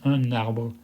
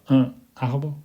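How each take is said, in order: First: The n sound links into the next word. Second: The two words are said separately without linking. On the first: The speaker calls it right. "ça se prononce lié" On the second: The speaker calls it wrong. "On ne dit pas un arbre"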